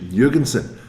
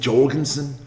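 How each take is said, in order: First: The name is said the Danish, European way. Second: The name is said the local Australian way.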